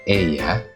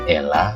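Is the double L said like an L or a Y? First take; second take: Y; L. First: The double L sounds like a Y. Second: The double L sounds like a plain L. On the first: The speaker calls it right. "Itu adalah" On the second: The speaker calls it wrong. "jangan dibaca"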